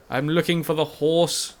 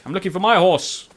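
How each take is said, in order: First: Slow drawn call. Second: Mock call. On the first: Pretend. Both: Calling out for his horse.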